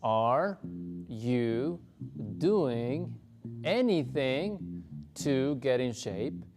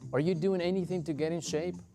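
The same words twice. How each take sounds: First: The question is said more slowly. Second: The question is said at normal speed.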